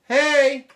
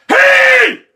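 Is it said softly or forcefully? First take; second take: softly; forcefully. First: It is said softly, without force. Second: It is shouted forcefully with urgency.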